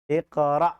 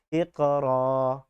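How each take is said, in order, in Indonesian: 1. Kata ini berakhir dengan vokal pendek dan hamzah. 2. Kata ini berakhir dengan vokal panjang yang dipanjangkan. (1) "ketika dia sukun iqra. A, itu kan ada suara a-nya" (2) "Kalau huruf alif kita justru bacanya iqra. Nah, cuman panjang aja"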